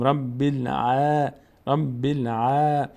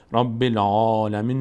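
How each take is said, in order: First: الع- with a slow, open "ae" vowel; slow recitation, front long a in الع-; thin, light reading. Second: العالمین with a dark, full "aw" vowel; full, rounded long a in العالمین; wrongly heavy reading. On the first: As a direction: draw out الع- lightly, never rounded. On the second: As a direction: recite العالمین too heavily, as the mistake. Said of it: "نمیخونه". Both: Shown as a demonstration.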